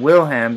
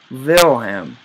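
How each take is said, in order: First: The name begins with a W sound. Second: The name begins with a V sound. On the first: The speaker calls it wrong. "Rather than" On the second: The speaker calls it right. "it's actually Vil"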